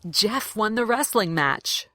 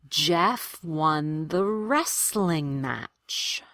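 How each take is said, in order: First: The sentence is said at natural conversational speed. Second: The sentence is said slowly and carefully. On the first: "the way I would say it in a real conversation" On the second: "I want to do them slowly"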